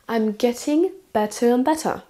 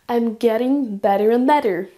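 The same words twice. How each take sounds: First: The middle t sounds are clear t sounds. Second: The middle t sounds are like quick d's. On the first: "Pour l'accent britannique" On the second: "Avec un accent américain"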